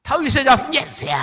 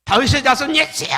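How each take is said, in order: First: Loud, high, strained cry, held just as hard; desperate cry again. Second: Loud, high, strained cry for help; desperate cry. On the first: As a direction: cry out once more, refusing to stop. (군중 너머 예수를 다시 부르는 맹인의 절박한 외침) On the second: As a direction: call out across the crowd with all you have. (군중 너머 예수를 부르는 맹인의 절박한 외침) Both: Acted. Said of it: "소리를 질렀어요".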